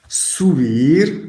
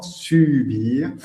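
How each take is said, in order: First: "subir" said the Spanish way, with an oo sound in su; Spanish pronunciation. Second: "subir" with the French u, lips rounded on sy; French pronunciation. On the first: Teacher shows students the Spanish "subir" with an oo sound. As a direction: say "subir" as in Spanish, soo-BEER. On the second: Teacher corrects students to the French u in "subir". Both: Shown as a demonstration. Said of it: "attention à la prononciation".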